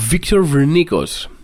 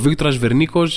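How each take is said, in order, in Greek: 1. Το όνομα προφέρεται με τον αγγλικό τρόπο. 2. Το όνομα προφέρεται με τον ελληνικό τρόπο. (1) "Το λέω έτσι με αυτή την προφορά γιατί έτσι το γράφει ο άνθρωπος" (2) "Δεν μιλάμε για τον Βίκτορα Βερνίκο αυτή τη στιγμή"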